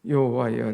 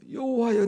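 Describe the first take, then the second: First: Said in the usual way. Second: High, loud call of "여호와여"; crying out. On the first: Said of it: "이 절 시작". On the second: Shown as a demonstration. Preacher re-reads the verse, crying "여호와여" out high and loud. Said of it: "떨린다고 표현했어요".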